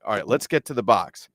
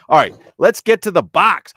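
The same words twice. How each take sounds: First: Said in the usual way. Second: High, loud hype shout; mock-frantic rallying yell; hammed-up announcement. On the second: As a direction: belt it out like a segment kickoff. Hyped segment call, then just kidding.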